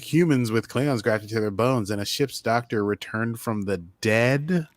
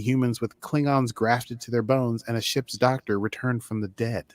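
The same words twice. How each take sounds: First: It is said in a mocking, sarcastic tone. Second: It is said in a plain, neutral tone.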